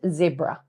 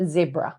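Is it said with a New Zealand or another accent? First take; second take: New Zealand; New Zealand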